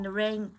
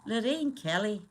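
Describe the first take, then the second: First: Said in the usual way. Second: Attempted Scottish accent; put-on Scottish lilt; Lorraine Kelly. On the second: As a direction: have a go at a Scottish TV presenter's accent. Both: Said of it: "I'm trying to do her accent".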